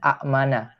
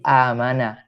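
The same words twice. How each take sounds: First: Two glottal stops meet at the start. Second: A smooth long vowel opens the word. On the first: This is the original underlying form. "Itu asalnya amana. Karena pertemuan dua hamzah" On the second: This is the lightened form actually used. "Hamzah keduanya diganti dengan alif"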